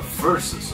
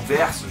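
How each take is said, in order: First: It is said with an English-like pronunciation. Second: It is said with a Brazilian Portuguese pronunciation.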